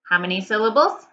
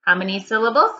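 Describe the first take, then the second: No difference in how they are said.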